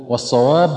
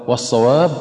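Both takes have the same delivery.

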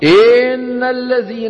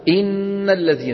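First: The first vowel is stretched into a long vowel. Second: The first vowel is short and clipped. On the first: The speaker calls it wrong. "مطينا الكسرة فتولد منها مين" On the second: The speaker calls it right. "الكسرة في الهمزة لها زمن"

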